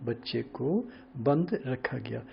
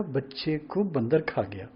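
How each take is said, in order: First: Slow, with a clear gap between बंद and रखा; बंद on its own, then रखा गया; word break after बंद. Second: बंदर run together as one word, then खा गया; word break after बंदर. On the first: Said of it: "एक अक्षर इधर से उधर". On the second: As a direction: join the र onto बंद to make बंदर. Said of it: "हम एक शब्द इधर उधर कर दें". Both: Shown as a demonstration.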